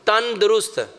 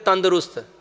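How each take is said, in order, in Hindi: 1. यह दो अलग शब्दों में बँटा हुआ है। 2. यह एक शब्द की तरह जुड़ कर बोला जाता है। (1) "लफ्ज क्या एक्चुअल में? तन दुरुस्त" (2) "हमने उसका लफ्ज ही बिगाड़ दिया, हम कहते हैं तंदुरुस्त"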